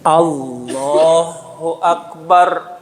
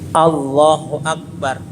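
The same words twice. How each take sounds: First: The phrase is drawn out longer. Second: The phrase is said too short.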